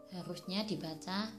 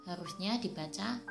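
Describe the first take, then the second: The two takes are said the same way.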